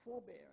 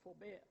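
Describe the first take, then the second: First: Forebear as FOR-bear, first syllable stressed. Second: Forbear as for-BEAR, second syllable stressed. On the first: Lecturer giving stress-pair examples, forebear stressed on first syllable. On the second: Lecturer giving stress-pair examples, forbear stressed on second syllable. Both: Shown as a demonstration. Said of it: "differ in stress".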